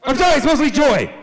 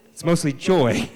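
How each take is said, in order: First: High, loud mock-emotional cry; overwrought outburst. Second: Said in the usual way. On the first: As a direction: burst out as if losing composure. Protesting after admitting deep sadness.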